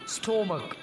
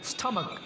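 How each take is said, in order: First: The first vowel sounds like 'oh'. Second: The first vowel sounds like 'uh'. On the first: The speaker calls it wrong. "इस लफ्ज़ की pronunciation ऐसे नहीं होगी स्टोमक, बिल्कुल गलत।" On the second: The speaker calls it right. "Correct pronunciation है स्टमक"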